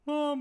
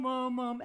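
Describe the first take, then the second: First: "mum" without front buzz, dull; "mum" sung back and swallowed; wrong mum. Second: "mum, mum" with forward ring; "mum" bright and buzzing; right mum. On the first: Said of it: "Not mum". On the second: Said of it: "Not mum, mum, mum". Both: Shown as a demonstration.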